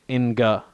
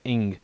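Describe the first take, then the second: First: It ends with a released hard g sound. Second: It ends on the nasal with no g. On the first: The speaker calls it wrong. "We don't say inga" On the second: The speaker calls it right. "we say ing"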